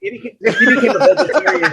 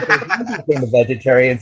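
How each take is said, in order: First: Higher, laughing as he says it; amused laughing version. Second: Said in the usual way. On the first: Real, not acted. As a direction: giggle through the sentence. Laughing retelling of the fan.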